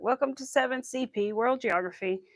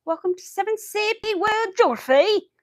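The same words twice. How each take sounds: First: Put-on a barely-there British accent on the teacher's greeting; only a hint of the British accent this time; faint British impression. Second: High, loud imitation of a British teacher with a thick UK accent; British teacher impression. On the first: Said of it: "I can't do it good anymore". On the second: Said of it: "he had the thickest accent".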